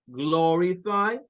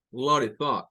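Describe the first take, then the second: First: "glorify" drawn out slowly with a clipped o; first "glorify". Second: "glorify" with an open o, a little lower; second "glorify". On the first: Teacher modelling one way to say "glorify". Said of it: "lo van a decir como glorify". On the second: Teacher modelling the other way to say "glorify". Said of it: "otros lo van a decir como glorify". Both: Shown as a demonstration.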